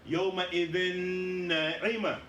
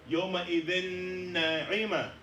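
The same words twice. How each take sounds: No difference in how they are said.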